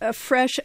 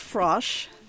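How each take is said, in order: First: The vowel is the ordinary 'eh' sound. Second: The vowel is pulled back toward 'ah'.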